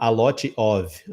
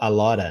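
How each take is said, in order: First: Each word is pronounced fully and separately. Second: The words merge, ending in a weak vowel. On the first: The speaker calls it wrong. "Ninguém fala a lot of" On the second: The speaker calls it right. "a gente fala a lota"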